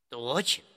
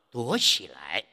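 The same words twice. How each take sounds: First: The final syllable is light, in neutral tone. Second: The final syllable keeps its full, stressed tone. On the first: The speaker calls it right. "来肯定也要读轻声的" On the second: The speaker calls it wrong. "不能读成躲起来"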